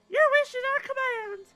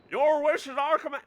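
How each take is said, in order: First: It is said in a fun, put-on voice. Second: It is said in a plain, ordinary voice.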